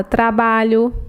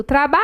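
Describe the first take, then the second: First: Said in the usual way. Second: "trabalho" called out with a long-held "ba"; shout-style "trabaaalho" to show the stressed syllable; calling the word out. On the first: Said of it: "Quando não é acentuada". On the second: Shown as a demonstration. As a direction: stretch the middle syllable of "trabalho" as if calling someone. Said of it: "eu grito".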